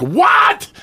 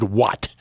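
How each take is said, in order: First: A sudden high, loud shout of disbelief; stunned shout at the radio; shouted what. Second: Said in the usual way. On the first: Retold or imitated. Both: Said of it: "I screamed".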